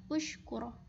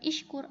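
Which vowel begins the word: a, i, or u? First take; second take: u; i. First: The word begins with a u vowel. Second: The word begins with an i vowel. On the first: The speaker calls it right. "maka dibaca ushkur" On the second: The speaker calls it wrong. "bukan ishkur"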